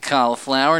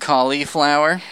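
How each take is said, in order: First: The first part does not sound like 'Kali'. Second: The first part sounds like the name 'Kali'. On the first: The speaker calls it right. "I say cauliflower" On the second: The speaker calls it wrong. "not cauliflower. Because Kali Ma"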